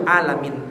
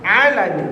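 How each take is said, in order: First: "Alamin" opened on a plain glottal a. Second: "Alamin" with a throat-constricted ain at the start; correct ain. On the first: Preacher demonstrating the meaning-changing mistake, "Alamin" with plain a. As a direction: say ALAMIN with hamzah, no pharyngeal ain. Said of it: "Pakai a, pa-, bukan pakai ain". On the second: Preacher naming the right letter to the class, "Alamin" with ain. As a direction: open ALAMIN on the pharyngeal Arabic ain. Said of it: "pakai ain". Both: Shown as a demonstration.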